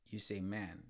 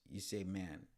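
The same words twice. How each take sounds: The two takes are said the same way.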